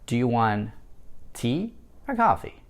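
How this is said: The pitch falls on the final word. It asks the person to choose one of two drinks. "Вы повышаете интонацию или pitch на слове tea, но на слове coffee вы ее понижаете"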